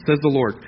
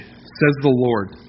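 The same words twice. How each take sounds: First: Said in the usual way. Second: Slow, weighty, each word set apart; slow solemn emphasis. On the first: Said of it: "same phrase said again quickly". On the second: Shown as a demonstration. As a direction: lean on every word like a proclamation. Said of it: "repeated scripture phrase, slowed".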